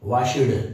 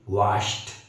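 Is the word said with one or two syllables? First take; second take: two; one. First: The ending is said as an extra syllable. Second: The ending is clipped with no extra syllable. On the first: The speaker calls it wrong. "गलत है" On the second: The speaker calls it right. "कड़क कड़क pronounce करो ... सही"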